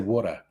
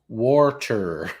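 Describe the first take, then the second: First: It is said with an Australian accent. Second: It is said with an American accent. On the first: This is the form the listener did not understand. "Australians say water" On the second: This is the form the listener finally understood. "eventually it gets to water"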